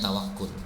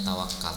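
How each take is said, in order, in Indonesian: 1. Suku kata terakhir memiliki vokal 'u'. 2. Suku kata terakhir memiliki vokal 'a'. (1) "Aslinya tawakul" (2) "Orang Indonesia menerjemahkannya tawakal ya"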